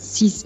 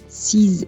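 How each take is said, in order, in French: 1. Le mot se termine par un son s. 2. Le mot se termine par un son z.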